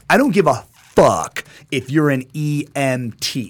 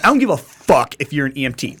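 First: It is said slowly and deliberately. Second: It is said at normal speed.

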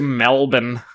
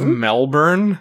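First: The word is said without an r sound. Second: The word is said with an r sound. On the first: This is how people in Australia say it. The speaker calls it wrong. "people in Australia also say" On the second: The spelling has an r, so it should be heard. The speaker calls it right. "Has an R in it"

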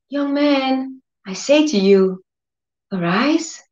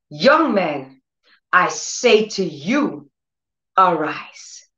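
First: It is said meekly, without authority. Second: It is said sternly, with authority.

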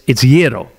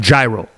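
First: The word is said with a Greek pronunciation. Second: The word is said with an American pronunciation. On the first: The speaker calls it right. "But it's gyro. As far as I know, it's always been gyro" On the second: The speaker calls it wrong. "It's not gyro"

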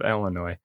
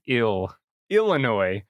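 First: The word begins straight with an L sound. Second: The word begins with a clear vowel before L. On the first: The speaker calls it wrong. "it's not L" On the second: The speaker calls it right. "it's I-L"

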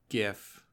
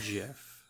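First: The word begins with a hard G sound. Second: The word begins with a J sound. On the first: The speaker calls it right. "It's GIF, ... G stands for graphics" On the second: The speaker calls it wrong. "not GIF"

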